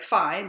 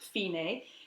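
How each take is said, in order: First: It is said as one syllable, like English fine. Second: It is said as two syllables, fee-nay. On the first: This is how the spelling looks. The speaker calls it wrong. "it looks like fine" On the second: This is how the word is actually said. The speaker calls it right. "but you actually pronounce it fine"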